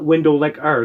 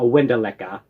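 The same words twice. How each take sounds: First: "windowlicker" with a full final R; tourist's pronunciation. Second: "windowlicker" ending in an open "ah", no R; New York pronunciation. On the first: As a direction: say "windowlicker" carefully, ending in "-er". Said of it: "they're gonna know you're a tourist". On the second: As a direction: say "windowlicker" as "winda-licka". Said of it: "Not windowlicker". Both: Retold or imitated.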